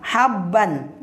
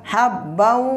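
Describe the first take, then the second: First: The word ends with a plain n sound. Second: The ending merges into a held nasal w. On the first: The speaker calls it wrong. "cara membacanya bukan habban" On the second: The speaker calls it right. "dibaca habbau wa nabata"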